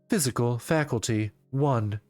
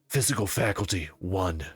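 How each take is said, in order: First: It is read in a robotic announcer voice. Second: It is read in a natural, everyday voice.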